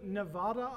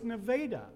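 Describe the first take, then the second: First: It uses an outsider's pronunciation of the name. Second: It uses the local pronunciation of the name. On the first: The speaker is not from around here. The speaker calls it wrong. "I wanted to go to Nevada" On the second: The speaker is from around here. The speaker calls it right. "no, it's Nevada"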